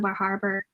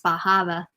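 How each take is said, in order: First: Said in the usual way. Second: "Bar Harbor" with Maine accent, both r's dropped; Down East accent. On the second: Shown as a demonstration. Reader showing local pronunciation of "Bar Harbor", Down East accent. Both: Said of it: "pronounced Bar Harbor".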